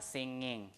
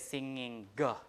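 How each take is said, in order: First: The word ends without a hard g sound. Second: The word ends with an audible hard g sound. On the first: The speaker calls it right. "In modern English, uh, G at the end is not pronounced" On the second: The speaker calls it wrong. "You don't say singing G like that"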